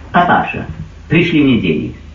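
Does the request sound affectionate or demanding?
demanding. The request sounds curt and demanding. The son only wants money and does not care. The speaker calls it wrong. "пришел в уныние"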